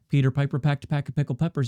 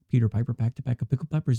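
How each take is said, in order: First: The voice has extra low-end bass added. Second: The voice has the most possible bass added. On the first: "keep on going in that low end" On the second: "with the low end all the way maxed out"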